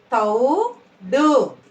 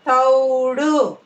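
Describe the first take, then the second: First: "తౌడు" split, rising తౌ, then డు; "తౌడు" in two separate syllables. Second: Said in the usual way. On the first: Shown as a demonstration. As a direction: slowly sound out "తౌడు" with a gap. Teacher sounds out syllables.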